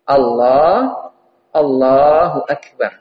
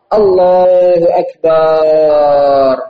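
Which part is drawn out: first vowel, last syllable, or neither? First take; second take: neither; last syllable. First: No vowel is lengthened. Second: The final syllable is lengthened. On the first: God is the greatest. The speaker calls it right. "lafadznya harus benar" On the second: It refers to a drum. The speaker calls it wrong. "Jangan pula akbarnya barnya panjang"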